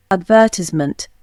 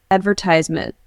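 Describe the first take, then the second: First: British accent "Advertisement" as ad-VER-tiss-ment, no R; British accent: stress VER in "Advertisement"; British accent demo. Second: "Advertisement" American, stress on AD, TIZE said long; American accent: ad-ver-TIZE-ment; American accent demo. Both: Shown as a demonstration. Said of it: "Pronunciation of particular words".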